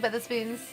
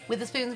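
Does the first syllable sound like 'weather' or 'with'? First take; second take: weather; with. First: The first syllable sounds like 'weather'. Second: The first syllable sounds like 'with'. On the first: This is the name's usual form. "it's Weatherspoons" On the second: This is the speaker's own habitual way of saying it. "it's the way I say it"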